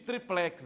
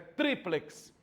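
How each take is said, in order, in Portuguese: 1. A tônica está na última sílaba. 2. A tônica está na primeira sílaba. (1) "Não existe triplex" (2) "é triplex"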